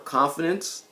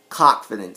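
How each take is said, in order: First: The first syllable is a plain, unstressed 'con'. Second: The first syllable is a stressed, emphasized 'cock'. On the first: Real self-assurance is meant. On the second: Cockiness is meant.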